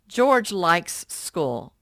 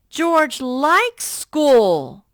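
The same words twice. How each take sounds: First: It is read in a plain, flat way. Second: It is read with lively, excited enthusiasm.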